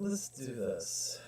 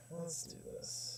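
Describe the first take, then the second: First: Said in the usual way. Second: Soft unvoiced whisper. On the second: Real, not acted. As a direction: breathe it out in a whisper. Repeats it in a whisper.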